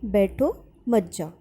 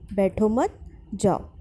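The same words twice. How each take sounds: First: There is a pause after the first word. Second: There is a pause after the second word. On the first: The listener is asked to sit and not leave. "बैठो के बाद अल्प विराम आया" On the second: The listener is told not to sit but to go. "बैठो मत के बाद अल्प विराम आया"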